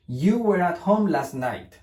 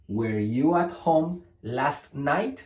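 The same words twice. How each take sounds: First: "You were at home last night" high and slow, falling on night; statement intonation. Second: "Were you at home last night" slow, rising on night; question intonation. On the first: Teacher contrasting affirmation with question, falling statement intonation. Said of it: "Afirmación". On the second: Teacher contrasting question with affirmation, rising question intonation. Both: Shown as a demonstration.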